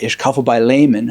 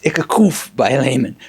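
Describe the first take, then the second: First: The verb keeps its final vowel. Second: The verb drops its final vowel. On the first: This is the form learned from lessons. "I remember learning Ich kaufe in German" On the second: This is how people in a Berlin neighborhood say it. "you'd hear someone say"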